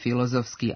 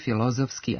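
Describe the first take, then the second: First: The inner syllable has no short rising accent. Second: The inner syllable has a short rising accent. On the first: The speaker calls it wrong. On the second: The speaker calls it right.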